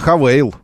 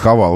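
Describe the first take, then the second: First: The name is said with an 'ey' second vowel. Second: The name is said with an 'a' second vowel. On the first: This is what the company calls itself. The speaker calls it right. "Они называют себя «Хавейл»" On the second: This is how the written name gets read. The speaker calls it wrong. "А он пишет «Хавал»"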